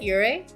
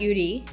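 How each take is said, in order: First: The first syllable sounds close to 'your'. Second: The first syllable sounds like plain 'you'. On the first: This is how the speaker's own name is said. "I pronounce it Yuri" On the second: This is how the genre name is said. "so not Yuri"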